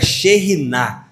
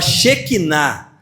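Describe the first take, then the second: First: The word is said the original Hebrew way. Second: The word is said the everyday Portuguese way. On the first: This is the original Hebrew form. "mas o hebraico é Sheriná" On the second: This is how people usually say it. "A gente fala Shekinah"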